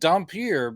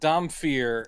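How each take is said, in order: First: The middle consonant is a p sound. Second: The middle consonant is an f sound. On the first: This is how the speaker always assumed it was said. "I always thought it was just Dompier" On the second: This is how the movie says it. "they pronounce it Dompier with like a f sound"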